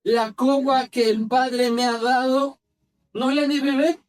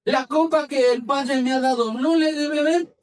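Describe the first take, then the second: First: Slow, deliberate question from scripture; unhurried quoted question; measured scripture reading. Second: Raised-pitch, insistent question; emphatic question, climbing higher at the end; forceful rebuke. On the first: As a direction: read it slowly, phrase by phrase. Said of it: "cómo se imagina esta escena". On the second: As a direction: act it out as a firm challenge. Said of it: "le ha de haber dicho bien fuerte". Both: Acted.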